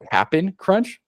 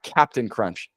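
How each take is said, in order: First: The first word is clipped to Cap'n. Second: The first word is said in full. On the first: The speaker calls it right. "So C A P apostrophe N. You have to say it like that" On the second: The speaker calls it wrong. "it's not Captain Crunch"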